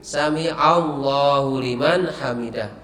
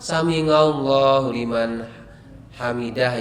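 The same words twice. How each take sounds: First: The consonant is a throat sound 'ain'. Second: The consonant is a nasal 'ng' sound. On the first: The speaker calls it right. "huruf hijaiyah itu kan hanya ain" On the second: The speaker calls it wrong. "di sini atau beberapa tempat"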